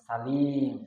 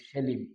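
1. প্রথম স্বরধ্বনিটি 'a' ধ্বনি। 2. প্রথম স্বরধ্বনিটি 'e' ধ্বনি। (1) "আরবিতে পাবেন সালিম" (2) "আমরা বলি সেলিম"

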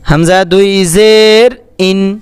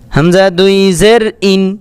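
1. স্বরধ্বনিগুলো টেনে লম্বা করা হয়। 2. স্বরধ্বনিগুলো টান না দিয়ে ছোট রাখা হয়। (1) "অনেক হুজুরেরা এরকম টান দিয়েও পড়ে" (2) "আর এভাবে যদি কারো সুবিধা হয় এভাবে পড়বেন"

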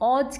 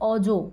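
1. শব্দটি স্বরহীন ব্যঞ্জনধ্বনি দিয়ে শেষ হয়। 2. শব্দটি স্বরধ্বনি দিয়ে শেষ হয়। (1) "অজ কিন্তু নয়, তাহলে কিন্তু ভুল হবে" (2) "এখানে চারা চিহ্নটা রয়েছে, তাই আমরা এটার উচ্চারণ করব হচ্ছে অজ"

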